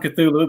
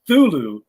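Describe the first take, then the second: First: A consonant sound comes before the 'th'. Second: The word starts directly with the 'th'. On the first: "I've always gone Cthulhu" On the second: "I've heard Thulu before, but um, I don't know that the C is silent"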